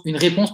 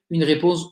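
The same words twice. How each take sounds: First: Said in the usual way. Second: Liège-accented "réponse", the vowel denasalized to "répose"; Liège accent slip. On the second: Real, not acted. Apologizing to webinar viewers, Liège-accented "réponse". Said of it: "mon accent liégeois".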